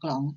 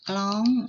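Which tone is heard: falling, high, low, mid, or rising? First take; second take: rising; high. First: The word is said on a rising tone. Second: The word is said on a high tone. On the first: "ไม้จัตวา" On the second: "เติมไม้ตรี"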